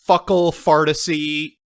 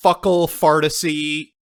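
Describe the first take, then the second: First: It is said in an exaggerated mock accent. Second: The same.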